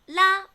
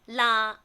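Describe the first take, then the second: First: The particle is said with tone number one. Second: The particle is said with tone number three. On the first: "Number one" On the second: "or number three"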